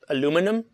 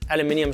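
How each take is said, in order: First: It is said the American way, aluminum. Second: It is said the British way, aluminium.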